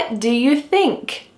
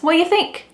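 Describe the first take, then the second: First: Every word is said slowly and fully. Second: 'Do' is dropped completely from the question. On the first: "do you think that we really say it this slowly? Absolutely not" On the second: "Do is just gone. It's completely absent from the sentence"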